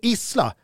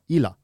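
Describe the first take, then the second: First: The s sound in the middle is pronounced. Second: The s sound in the middle is dropped. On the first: "man byter inte uttal på Isla" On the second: "borde vara Illa"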